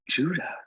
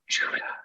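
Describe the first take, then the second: First: It is said at a normal volume. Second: It is said very quietly, almost hushed.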